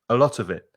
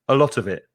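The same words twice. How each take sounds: The two takes are said the same way.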